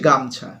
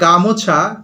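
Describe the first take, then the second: First: No vowel follows the m sound. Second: A full o vowel follows the m sound. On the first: "ওকারটা লুপ্ত হয়ে গেল" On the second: "যেমন ধরো গামোছা"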